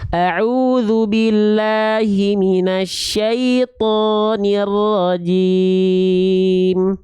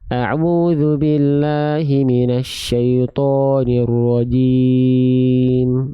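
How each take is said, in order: First: The vowels are said with an open, unpursed mouth. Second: The vowels are said with pursed, rounded lips. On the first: The speaker calls it right. "Apakah ada vokal A yang mingkem? Apakah ada vokal O yang monyong? Tidak ada" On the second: The speaker calls it wrong. "Jadi bukan"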